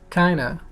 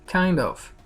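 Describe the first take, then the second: First: The words are run together into one reduced word. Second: Both words are said separately and in full.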